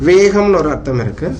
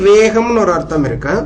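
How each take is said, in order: No difference in how they are said.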